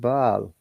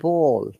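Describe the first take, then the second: First: The vowel is a more open American ah sound. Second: The vowel is a rounded British aw sound. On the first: "they said ball" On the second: "We said ball"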